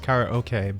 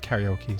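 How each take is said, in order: First: It is said with a Japanese-style pronunciation. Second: It is said with an English-style pronunciation. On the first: This is the technically correct original form. "technically it's karaoke, but I feel like I'm a weeb" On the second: This is the form commonly heard. "I've always heard karaoke"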